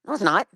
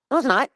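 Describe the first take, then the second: First: Higher, heated no, it's not; angry denial. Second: Angry shout. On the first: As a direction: snap back no, it's not. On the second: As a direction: yell no, it's not at her. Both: Real, not acted. Ranting at Flavor over court.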